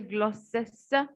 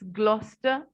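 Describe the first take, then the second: First: The name is said with three syllables. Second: The name is said with two syllables. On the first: The speaker calls it wrong. "We don't say Gloucester" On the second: The speaker calls it right. "it's Gloucester"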